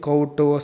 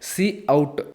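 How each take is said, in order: First: It is said as one syllable, kout. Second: It is said as two parts, see out. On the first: The speaker calls it wrong. "మీరు దీన్ని కౌట్ so ఇట్లాగా పలుకుతారు" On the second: The speaker calls it right. "కానీ దీన్ని pronounce చేసేది ఎట్లాగంటే సి అవుట్"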